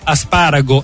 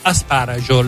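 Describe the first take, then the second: First: It ends in a plain -go sound. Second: It ends in a -gio sound. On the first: This is the standard Italian form. "è in italiano" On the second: This is the local regional form. "è da noi"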